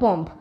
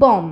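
First: The final b sound is pronounced. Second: The final b sound is left out. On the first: The speaker calls it wrong. "এই বম্ব কিন্তু ভুল" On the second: The speaker calls it right. "উচ্চারণ করতে হবে এভাবে"

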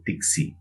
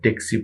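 First: The first vowel sounds like 'i' in sit. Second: The first vowel sounds like 'a' in cat. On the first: "সেটাকে বলবে তিক্সি" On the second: "ট্যাক্সি বলবেন"

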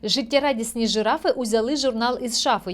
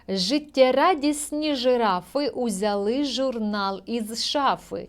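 First: It is read quickly, at a faster pace. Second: It is read at a steady, unhurried pace.

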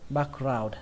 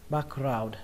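Both takes have the same delivery.

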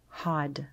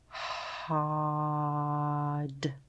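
First: The word is said quickly as one whole unit. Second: The word is stretched out slowly, sound by sound. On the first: "Now we're going to say it fast like a word" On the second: "Tap and stretch with me"

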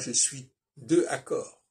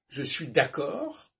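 First: The vowel of 'de' is pronounced before 'accord'. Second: The vowel of 'de' is dropped before 'accord'. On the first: The speaker calls it wrong. "Je ne dis pas" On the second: The speaker calls it right. "j'utilise le D apostrophe"

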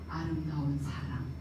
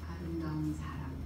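First: The words are spoken with an open, supported sound. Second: The words are spoken with a nearly closed mouth. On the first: The speaker calls it right. "혀를 이렇게 아래로 내리고 그렇게 하게 되면 아름다운 사람 이렇게 해서 소리를 받쳐줘서 냅니다" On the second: The speaker calls it wrong. "입을 안 벌리고 자세 이렇게 할까요?"

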